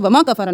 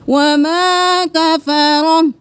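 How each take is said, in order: First: The vowel in 'wama' is cut short. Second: The vowel in 'wama' is held long. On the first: The speaker calls it wrong. "नहीं करना" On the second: The speaker calls it right. "खींचना है"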